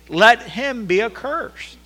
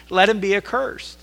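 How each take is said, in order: First: Slow, even higher and louder "let him be accursed", "let" stretched; second reading, more forceful; stronger second emphasis. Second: Loud, higher emphatic reading of "let him be accursed"; scripture read with emphasis; first emphatic reading. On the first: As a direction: hammer "let him be accursed" home slowly. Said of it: "says it again to put the emphasis". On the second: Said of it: "says it with an emphasis". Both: Shown as a demonstration.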